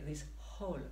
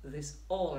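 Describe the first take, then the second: First: The word all starts with an added h. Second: The word all starts with a vowel, no h. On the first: The speaker calls it wrong. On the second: The speaker calls it right.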